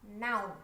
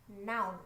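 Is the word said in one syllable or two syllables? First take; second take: one syllable; one syllable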